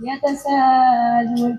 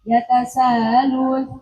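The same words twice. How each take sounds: First: The vowel before the hamzah is held long. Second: The vowel before the hamzah is held briefly. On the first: "terus yang kedua yatasalun" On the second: "dibaca wajah pertama seperti yatasalun"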